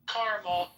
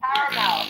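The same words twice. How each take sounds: First: Said in the usual way. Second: Louder repeat. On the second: Real, not acted. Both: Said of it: "repeats the word for the drive-thru speaker".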